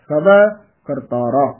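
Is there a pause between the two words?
yes. There is a pause after the first word. The speaker calls it right. "ਸਭਾ ਇੱਥੇ ਯਮਕ ਲਾ ਦੇਣੀ ਹੈ"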